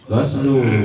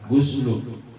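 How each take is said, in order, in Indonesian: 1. Vokal pertamanya 'a' terbuka. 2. Vokal pertamanya 'u' bulat. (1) "dibaca patah oginnya itu lebih afsah" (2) "oginya didomahkan"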